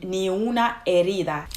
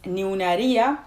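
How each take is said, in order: First: The last word is said fully, with a d sound. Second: The last word is reduced, with no d sound. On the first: "It's supposed to mean ni una herida" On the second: "she doesn't pronounce the word as, as it's actually pronounced. So she says"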